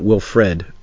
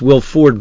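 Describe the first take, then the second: First: The second syllable sounds like 'fred'. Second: The second syllable sounds like 'ford'. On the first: The speaker calls it wrong. "not Wilfred. I've been saying it wrong" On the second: The speaker calls it right. "It's Will Ford Brimley"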